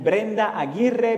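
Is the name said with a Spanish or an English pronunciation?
Spanish. The name is said with Spanish pronunciation. This is the name as originally said.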